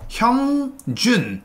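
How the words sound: Each syllable is cut off and said separately. The speaker calls it right. "한글 음절을 하나씩 끊어서 형준 이렇게 발음을 하셔야"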